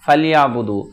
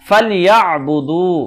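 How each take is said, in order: First: The throat consonant 'ain is left out. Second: The throat consonant 'ain is clearly sounded. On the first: The speaker calls it wrong. "এভাবে বললে আইন অক্ষরটি বাদ যায়।" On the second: The speaker calls it right. "এভাবে পড়তে হবে।"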